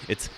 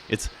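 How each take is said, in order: Both takes have the same delivery.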